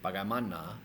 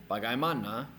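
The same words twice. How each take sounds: First: Bagaimana with the final NA stressed, lower pitch; stress on fourth syllable. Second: Bagaimana with MA stressed, rising after; stress on third syllable. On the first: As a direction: lean on the last NA of bagaimana. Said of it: "they'll put it on the fourth". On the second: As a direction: lean on the MA in bagaimana. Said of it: "put it on the third syllable". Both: Shown as a demonstration.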